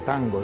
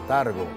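First: The n sound is clearly pronounced. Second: The n sound is dropped from the word. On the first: This is the ordinary pronunciation. "no decía tango" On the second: This is a fashionable affectation. "no pronunciaba las N's, pero era una especie de afectación como de moda"

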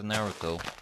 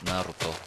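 First: The name is said with an English pronunciation. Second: The name is said with a Japanese pronunciation.

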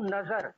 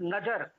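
First: The middle consonant is a z sound. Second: The middle consonant is a plain j sound. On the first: The speaker calls it right. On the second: The speaker calls it wrong.

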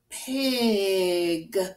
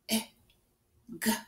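First: The word is said smoothly as one unit. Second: The word is broken into separate sounds. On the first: "When we put them together, we get pig" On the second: "You hear all the sounds?"

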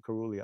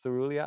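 First: The word begins with a 'k' sound. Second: The word begins with an 's' sound. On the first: "I would say corulea" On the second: "Instead of cerulea"

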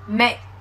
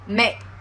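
Both takes have the same delivery.

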